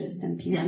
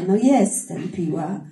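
First: Said in the usual way. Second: JESTEM drawn out and louder, owning it; emphatic admission. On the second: Real, not acted. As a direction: lean hard and slow on "jestem". Owns up to the reported label.

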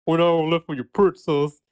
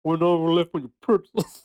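First: Put-on New York accent. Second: Put-on failed New York accent. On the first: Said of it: "she has to do a New York accent". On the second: Host fails at a TV presenter's New York accent, half-laughing. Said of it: "I can't do it".

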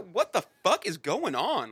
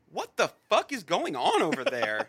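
First: Slow, loud, stressing "fuck"; slow emphatic disbelief. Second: Laughing it out, pitched high and loud; laughing disbelief. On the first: Friend repeating the outrage slowly, stressing "fuck". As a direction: lean on "fuck" and stretch the whole line out. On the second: Friend laughing at the absurd ending, loud and high. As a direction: cackle through the question in disbelief. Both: Real, not acted.

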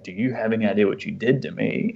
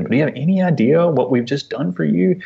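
First: Lightly voiced little girl's retort, falling at the end; a hint of a hurt child, close to the usual voice; child answering back. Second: High, incredulous parental appeal; retold frustration, rising at the end; exasperated dad. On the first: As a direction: imitate a small child throwing the question back, understated. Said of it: "back to me in her little way". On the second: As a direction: plead the question, pitch lifted on the key words. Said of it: "it was hard for me as a dad to be like".

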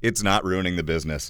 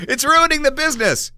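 First: Soft, flat taking it back; deadpan retraction. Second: High, overblown indignant cry; mock dramatic outrage. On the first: Real, not acted. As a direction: drop it quietly, deadpan. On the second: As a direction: ham up the outrage. Joking overstatement, then retracted.

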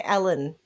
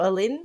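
First: Alan said as AL-an, the usual way; first guess at the name. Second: Alyn offered as the other way to say it; second pronunciation guess. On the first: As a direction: try the name as Alan, like the common name. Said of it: "I'm gonna say Alan". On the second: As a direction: give Alyn as the alternative reading of the name. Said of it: "It's A double L Y N". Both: Shown as a demonstration.

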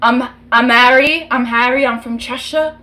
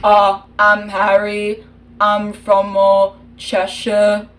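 First: Quick British accent, imitating a pop singer; fast British accent. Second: Put-on British accent, taken slowly this time; slower British accent. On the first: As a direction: rattle off Harry's Cheshire lines fast in British. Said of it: "only British accents I know are from the four different members of a band". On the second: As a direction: redo Harry in British, nice and slow. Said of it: "you did Harry too fast".

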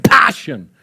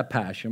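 First: Passion said the English way, PASH-un; English pronunciation. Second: Passion said with a Swedish sj sound, pa-SHON; soft Swedish passion, muttered with a laugh; Swedish-style pronunciation. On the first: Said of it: "man måste säga passion". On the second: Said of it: "Man kan inte säga passion". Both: Shown as a demonstration.

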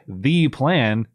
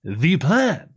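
First: THE as "thee", only mildly stressed; lightly imitated "thee" for THE; milder imitated THE. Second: THE as an exaggerated "thee", pitched higher; higher, hammed-up "thee" for THE; bizarre emphatic THE. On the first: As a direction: say THE as "thee" without overdoing it. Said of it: "she's not just saying it was". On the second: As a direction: overdo THE as "thee", mimicking an odd delivery. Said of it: "The way that she says it is so bizarre".

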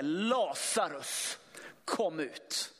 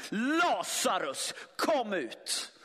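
First: Långsamt, utdraget och lågmält rop, bara lätt spelat; Jesus ropar lätt. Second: Starkt, utdraget rop; ropar på Lazarus. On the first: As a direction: en lätt antydd, långsam Jesusröst som kallar. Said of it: "Det ropet". (långsamt och lågmält kallande rop) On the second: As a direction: kalla honom högt ur graven, långsamt. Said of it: "Vad är det som händer här?". (starkt och långsamt rop ut i mörkret) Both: Acted.

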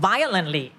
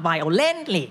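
First: "violently" stressed on the first syllable, VI-olently; correct stress on VIolently. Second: "violently" with the stress shifted to LENT; wrong stress on vioLENTly. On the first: Teacher showing that -ly shifts no stress, "violently" with stress on VI. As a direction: keep the root word's stress in "violently", VI first. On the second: Teacher showing the mistake to avoid, "violently" stressed on LENT. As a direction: punch the middle of "violently": vio-LENT-ly. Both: Shown as a demonstration. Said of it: "it's not violently".

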